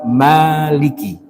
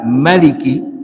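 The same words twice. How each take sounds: First: The first vowel is long. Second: The first vowel is short.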